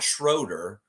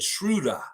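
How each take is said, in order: First: The name is said with an English pronunciation. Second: The name is said with a German pronunciation. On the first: The speaker calls it wrong. "it's not Schroeder. Schroeder is not his last name" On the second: The speaker calls it right. "if you want to put that German inflection in it"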